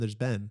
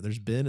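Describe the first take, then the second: First: "Ben" with a clear short e, the name. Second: "Ben" said as "bin", for "been"; short i vowel in "Ben", stressed. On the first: Roommate insisting they differ, "Ben" rhyming with "pen". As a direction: open the vowel in "Ben" to rhyme with "pen". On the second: Roommate insisting they differ, "Ben" said as "bin". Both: Retold or imitated. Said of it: "No, no, it's different".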